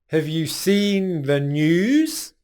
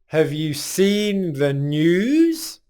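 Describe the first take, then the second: No difference in how they are said.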